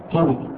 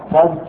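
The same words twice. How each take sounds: First: "كذب" as one syllable, kidhb; short i after the kaf in "كذب", no vowel before the b; "كذب" pronounced kidhb; kasra on kaf. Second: "كذب" as one syllable, kadhb; "كذب" pronounced kadhb; fatha, silent middle vowel. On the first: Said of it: "وكسرها". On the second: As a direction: open a after the kaf in "كذب", no vowel before the b. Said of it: "فيجوز فتح الكاف". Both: Shown as a demonstration.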